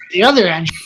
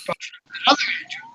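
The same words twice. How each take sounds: First: Said in the usual way. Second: Breathy whisper, quicker, on other Andrew; whispered emphasis. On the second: Shown as a demonstration. Whispering to his podcast friend which Andrew he means. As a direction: whisper it like a secret aside. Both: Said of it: "not this Andrew".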